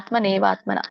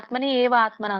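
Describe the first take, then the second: First: The words are merged into one continuous word. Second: The words are said as separate words. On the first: "so ಹಾಗೆ" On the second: "ನಿಮ್ಗೆ ಗೊಂದಲ ಆಗ್ತಾ ಇದ್ರೆ"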